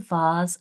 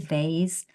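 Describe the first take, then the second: First: The word has a British pronunciation. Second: The word has an American pronunciation. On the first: "I say vase" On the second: "Americans say vase"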